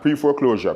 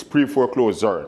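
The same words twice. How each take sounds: First: Pre-foreclosure with the usual "zh" sound in closure; standard ZH ending. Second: Pre-foreclosure ending in "closer", with a z sound. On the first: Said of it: "not pre-foreclosure". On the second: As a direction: say pre-foreclosure as "pre-fore-CLOZER". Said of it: "it's closer as in C L O S E R". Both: Shown as a demonstration.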